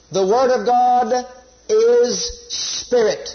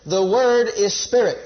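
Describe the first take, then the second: First: Slow, drawn-out "is spirit"; emphatic teaching. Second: Said in the usual way. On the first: Shown as a demonstration. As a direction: stretch "is" long, then land on "spirit". Preacher sums up the repeated lesson.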